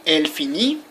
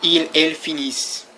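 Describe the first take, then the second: First: "finit" ending on an open ee; "finit" with the T left silent; silent final T. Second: "finissent" ending on a single S sound; "finissent" with an audible S and nothing after; silent plural ending. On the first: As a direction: say "finit" as fee-nee, no consonant at the end. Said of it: "The T is not pronounced". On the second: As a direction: say "finissent" as fee-neess, dropping the E N T. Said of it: "without pronouncing all that other stuff". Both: Shown as a demonstration.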